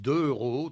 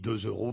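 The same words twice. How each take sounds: First: No z sound links the two words. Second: A z sound links the two words. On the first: The speaker calls it wrong. "les gens disent deux euros" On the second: The speaker calls it right. "on dit deux euros"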